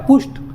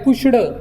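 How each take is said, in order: First: The word ends with a voiceless T sound. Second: The word ends with a voiced D sound. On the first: The speaker calls it right. "ह्या ईडीचा silent टी म्हणजे ट असा उच्चार करायचा" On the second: The speaker calls it wrong. "पुष्ड म्हणायचं नाही याला"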